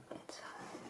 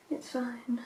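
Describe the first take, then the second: First: Very soft, tiny murmur to oneself; barely audible. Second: Said in the usual way. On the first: Real, not acted. Vlogger reassuring herself about cleaning brushes, barely audible. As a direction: let it fade almost to nothing. Repeats it almost inaudibly to herself.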